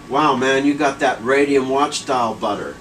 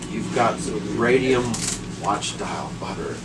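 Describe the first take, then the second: First: First blurt. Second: Spelled out slowly for her; slow careful repeat of radium watch dial butter; slow, deliberate repeat. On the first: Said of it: "I was like". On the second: Repeating himself slowly to a puzzled wife. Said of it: "And I said". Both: Retold or imitated.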